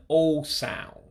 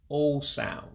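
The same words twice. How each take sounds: The two takes are said the same way.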